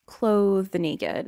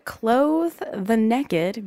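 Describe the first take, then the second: First: Said in the usual way. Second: "naked" said as "nekkid"; Southern "NEK-id" for "naked"; Southern pronunciation. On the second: Retold or imitated. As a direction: stretch it slowly, NAKED with a short "neck" vowel. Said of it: "a lot of people say naked instead of naked".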